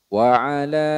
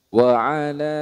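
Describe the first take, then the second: No difference in how they are said.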